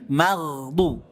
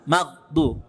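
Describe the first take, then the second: First: The gh sound keeps flowing before the d. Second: The gh sound is cut short before the d. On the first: The speaker calls it right. "Tetap mengalir suara ghain sukunnya" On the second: The speaker calls it wrong. "Bukan maghdu"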